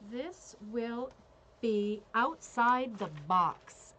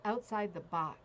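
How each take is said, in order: First: Slow, drawn-out call, much louder; bingo caller. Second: Said in the usual way. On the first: Pretend. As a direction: stretch each word like calling a bingo number. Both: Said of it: "let me tell you what call this is".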